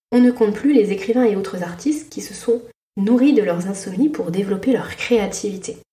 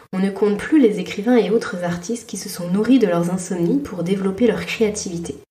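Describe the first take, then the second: Both takes have the same delivery.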